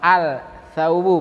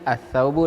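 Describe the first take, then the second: First: The l sound is clearly pronounced. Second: The l merges into a doubled th. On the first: The speaker calls it wrong. "bukan ... al thawbu" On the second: The speaker calls it right. "tetapi langsung"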